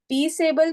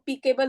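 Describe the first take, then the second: First: The middle c sounds soft, like s. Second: The middle c sounds hard, like k. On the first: The speaker calls it right. "peaceable में आपने correct रखा है" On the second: The speaker calls it wrong. "नहीं तो peaceable हो जाता था"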